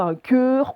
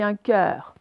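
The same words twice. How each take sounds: First: Cœur avec un E fermé, comme dans nœud; mauvais E fermé. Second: Cœur avec un E ouvert, comme dans œuf. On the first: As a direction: arrondir et fermer le E de cœur. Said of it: "On dit pas un cœur". (cœur prononcé à tort avec E fermé) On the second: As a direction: ouvrir la bouche sur le E de cœur. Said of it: "on dit un cœur". (cœur, E bien ouvert) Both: Shown as a demonstration.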